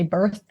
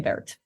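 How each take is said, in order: First: The name ends with a 'th' sound. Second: The name ends with a 't' sound. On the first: "Some people say birth" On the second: "I say Bert"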